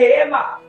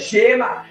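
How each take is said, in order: First: The word begins with a breathy H sound. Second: The word begins with a soft SH-like sound. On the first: The speaker calls it right. "on va dire que Hema" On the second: The speaker calls it wrong. "on ne va pas dire que Shema"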